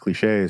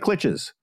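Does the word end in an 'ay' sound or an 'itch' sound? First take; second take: ay; itch. First: The word ends with an 'ay' sound. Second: The word ends with an 'itch' sound. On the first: The speaker calls it right. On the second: The speaker calls it wrong.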